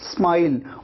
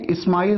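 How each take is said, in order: First: It starts directly with the s sound. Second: An extra vowel comes before the s sound. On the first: The speaker calls it right. "स नहीं पूरा लगाते, आप कहते हैं स्माइल, और ई भी नहीं लगाते" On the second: The speaker calls it wrong. "इस्माइल आपको नहीं कहना है, ये ई आपको नहीं लगाना है"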